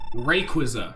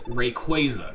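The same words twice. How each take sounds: First: The middle does not sound like 'quasar'. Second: The middle sounds like the word 'quasar'. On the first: This is how many people say it. The speaker calls it wrong. "I know a lot of people pronounce the, the name Rayquaza" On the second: The name comes from a space object. The speaker calls it right. "It's Rayquaza because it's supposed to be a quasar"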